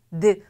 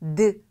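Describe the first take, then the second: Both takes have the same delivery.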